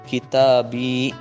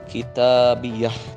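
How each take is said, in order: First: The word ends on a plain long i vowel. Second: The word ends with an added final h sound. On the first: "bersambung dengan ya mutakallim, maka dibaca kitabi" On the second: "boleh menambahkan hak sakat di akhirnya. Jadi dibaca kitabiyah"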